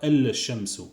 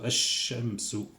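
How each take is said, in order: First: The L is pronounced before the sh sound. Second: The L is dropped, going straight to sh. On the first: The speaker calls it wrong. "Je ne dis pas al-shamsu" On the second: The speaker calls it right. "Je dis shamsu, al-shamsu. Je vais directement al-shin"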